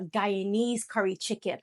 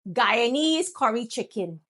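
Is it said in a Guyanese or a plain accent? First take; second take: plain; Guyanese. First: It is said in the speaker's usual accent. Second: It is said in a Guyanese accent.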